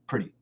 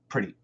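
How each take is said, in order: First: It is said fast with a weak schwa vowel. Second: The same.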